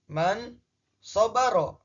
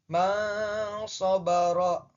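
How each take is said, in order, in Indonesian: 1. Bunyi n dibaca jelas. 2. Bunyi n dibaca samar.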